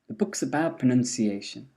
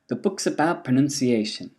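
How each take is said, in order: No difference in how they are said.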